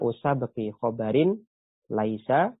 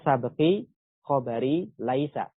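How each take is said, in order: First: The word khobar ends with an added n sound. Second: The word khobar ends without an n sound. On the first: The ending is added so the verse rhymes with the previous line. "ditanwin juga kata khobarnya" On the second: This follows the normal grammatical rule for a possessive construction. "Harusnya khobarnya nggak ditanwin"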